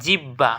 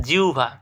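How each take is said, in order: First: Said in the usual way. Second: জিহ্বা as "jiu-bha"; correct pronunciation. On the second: Shown as a demonstration. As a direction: glide "jiu" then aspirated "bha" in জিহ্বা. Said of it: "এটার সঠিক উচ্চারণ হচ্ছে". (জিহ্বাকে "জিউভা" উচ্চারণ)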